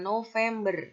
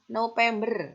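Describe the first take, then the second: First: The middle consonant sounds like v. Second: The middle consonant sounds like p. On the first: This is the standard form. The speaker calls it right. "kata bakunya November" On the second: This is the informal, non-standard form. The speaker calls it wrong. "kalau itu adalah kata tidak baku"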